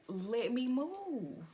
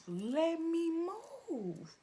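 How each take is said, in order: First: "let me move" said high and slow; drawn-out demonstration. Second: "Let me move" much higher and louder, drawn out; emphatic repeat. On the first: Speaker models the logical response, pointedly slow "let me move". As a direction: stretch "let me move" as if spelling out the obvious. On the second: Speaker hammers home the simple fix, exasperated high "Let me move". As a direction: punch "Let me" up high, then stretch "move". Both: Shown as a demonstration.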